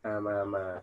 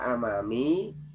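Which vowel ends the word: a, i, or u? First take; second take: a; i. First: The word ends with an a vowel. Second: The word ends with an i vowel. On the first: The speaker calls it right. "Tapi dibaca apa? Amama. Kenapa? Nasab" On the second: The speaker calls it wrong. "tidak dibaca amami"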